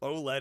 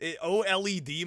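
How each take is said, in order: First: It is said as one two-syllable word. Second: Each letter is spelled out, making four syllables. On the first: "is two" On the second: "makes it four syllables"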